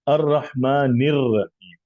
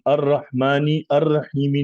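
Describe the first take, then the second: First: 'Rahmani' links straight into 'r rahim'. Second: The 'a' before 'rahim' is pronounced separately. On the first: The speaker calls it right. "रहीम वाला आ नहीं बोलते" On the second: The speaker calls it wrong. "नहीं पढ़ते"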